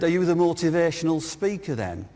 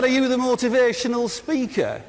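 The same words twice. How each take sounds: First: Lightly imitated Birmingham accent; retold question in a Birmingham accent. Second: Higher, hammed-up Birmingham accent; exaggerated Brummie accent, high-pitched question. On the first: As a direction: put on a mild Brummie accent. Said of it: "In a Birmingham accent". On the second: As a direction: imitate a Brummie, pitched up for laughs. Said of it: "who's got a Birmingham accent".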